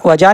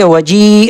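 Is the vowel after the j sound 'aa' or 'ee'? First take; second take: aa; ee. First: The vowel after the j is a long aa. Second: The vowel after the j is a long ee. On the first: The speaker calls it wrong. "वजा नहीं करेंगे" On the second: The speaker calls it right. "बल्कि वजी अलीफ को पढ़ना नहीं है"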